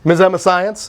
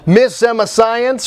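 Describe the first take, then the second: First: It is said fast, the words running together. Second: It is said at a normal pace.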